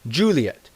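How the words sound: The name is said with an English pronunciation. "The English pronunciation is"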